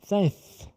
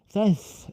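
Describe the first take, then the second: No difference in how they are said.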